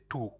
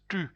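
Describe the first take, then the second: First: The vowel is an English-style back oo. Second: The vowel is the French rounded front u. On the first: The speaker calls it wrong. "others you will probably say tu, but it's not" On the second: The speaker calls it right. "So it is tu"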